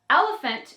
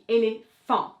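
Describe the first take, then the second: First: The stress falls before the last syllable. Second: The stress falls on the last syllable. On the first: "in English" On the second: "accentuate that last syllable"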